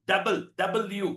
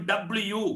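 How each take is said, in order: First: ഡബിൾ, ഡബ്ല്യു spelled out as double-u; correct pronunciation. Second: ഡബ്ല്യു said clipped as dablyu; Malayali pronunciation. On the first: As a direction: say ഡബിൾ, ഡബ്ല്യു as double-u, both parts clear. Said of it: "എന്നാണ് അതിന്റെ ലെറ്ററിന്റെ pronunciation". (ശരിയായ ഉച്ചാരണം ഡബിൾ യു) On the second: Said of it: "നമ്മൾ പറയും ഡബ്ല്യു". (ഡബ്ല്യു Malayali ഉച്ചാരണത്തിൽ) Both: Shown as a demonstration.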